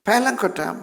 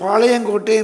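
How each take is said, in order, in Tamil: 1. இந்தப் பெயர் ஆங்கில பாணி உச்சரிப்பில் சொல்லப்படுகிறது. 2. இந்தப் பெயர் தமிழ் இயல்பான உச்சரிப்பில் சொல்லப்படுகிறது. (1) "அந்த நாட்கள்லாம்" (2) "இப்போ பாளையங்கோட்டை என்று சொல்லுகிறோம்"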